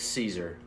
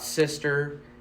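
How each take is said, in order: First: It is said with a long 'ee' vowel first. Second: It is said with a short 'i' and 'st'. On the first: The speaker calls it right. "It's Caesar" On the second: The speaker calls it wrong. "It's not Sister"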